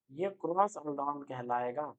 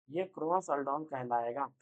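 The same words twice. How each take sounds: First: cross aldol slowed and lowered; slow teacher emphasis. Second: cross aldol slow with a rising end; drawn-out cross aldol; slow teacher emphasis. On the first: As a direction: spell out cross aldol deliberately. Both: Shown as a demonstration. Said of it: "repeated slowly".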